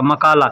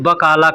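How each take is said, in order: First: The word begins with an m sound. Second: The word begins with a b sound. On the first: The speaker calls it wrong. "मैं मकाला कहता था" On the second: The speaker calls it right. "मकाला नहीं कहते हैं, बकाला कहते हैं"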